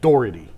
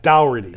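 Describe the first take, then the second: First: The first syllable sounds like 'door'. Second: The first syllable sounds like 'dower'. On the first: The speaker calls it right. "Do you walk through a dower or a door? Okay, so it's Brad Doherty" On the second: The speaker calls it wrong. "not Dougherty"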